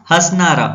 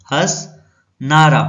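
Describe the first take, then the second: First: Said in the usual way. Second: हंसनारा drawn out very slowly, broken after हंस; slow, split word. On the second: Shown as a demonstration. Teacher forming another word from हंस, slow and split. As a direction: say हंसनारा in two stretched parts, हंस then नारा.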